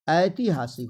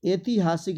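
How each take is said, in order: First: ऐतिहासिक with a wide "ai", "aitihasik"; ऐतिहासिक starting on a full ai glide; correct pronunciation. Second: ऐतिहासिक with a narrow "e", "etihasik"; ऐतिहासिक starting on plain e, not ai; wrong pronunciation. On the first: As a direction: open the first vowel of ऐतिहासिक. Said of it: "ऐ की मात्रा देंगे". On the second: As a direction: close the first vowel of ऐतिहासिक to "ay". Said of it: "ऐतिहासिक नहीं होता है". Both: Shown as a demonstration.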